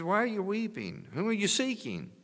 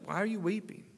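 First: High, tender voice of Jesus; Jesus asking. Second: High, gentle voice of the angels at the tomb; angel asking. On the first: Jesus asking weeping Mary at the tomb, high gentle voice. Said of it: "He says". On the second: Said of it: "they's like". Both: Retold or imitated.

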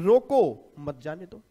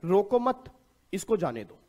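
First: Loud, drawn-out "रोको", a break, then "मत जाने दो"; pause after रोको. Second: "रोको मत" raised as one unit, then a break before "इसको जाने दो"; pause after मत. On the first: Teacher showing students the opposite reading, slow with pause after "रोको". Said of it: "और कुछ लोग कह रहे हैं". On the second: Teacher showing students one reading of a comma-less line, pause after "मत". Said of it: "इसमें coma लगाना भूल गया मैं". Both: Shown as a demonstration.

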